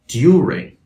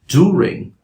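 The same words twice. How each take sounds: First: A y sound comes before the oo vowel. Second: The oo vowel follows with no y sound. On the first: "a standard British English speaker would say" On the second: "standard American English speaker would say"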